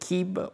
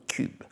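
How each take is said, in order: First: The vowel is an unrounded ee sound. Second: The vowel is a rounded u sound. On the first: "le I" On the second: "le U"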